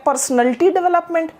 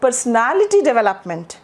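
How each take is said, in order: First: "पर्सनैलिटी" squeezed to per-snul-tee; imitated mispronunciation. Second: "पर्सनैलिटी" as per-suh-NAL-i-tee; every syllable of "पर्सनैलिटी" given, NAL stretched; corrected personality. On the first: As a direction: mimic the wrong, squashed "पर्सनैलिटी". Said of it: "जो गलत सलत भी सिखा रहे हैं". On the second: Shown as a demonstration. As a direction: stress a long NAL in "पर्सनैलिटी". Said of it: "right और wrong के बीच में".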